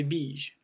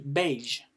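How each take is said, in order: First: Beige said as "beezh", long I; taught vowel variant. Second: Beige said as "behzh", open E; opposite vowel variant. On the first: Teacher concludes the rule for learners, beige pronounced "beezh". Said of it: "c'est le E qui le remporte". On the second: Teacher gives the hypothetical opposite, beige pronounced "behzh". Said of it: "Si ça aurait été le contraire". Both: Shown as a demonstration.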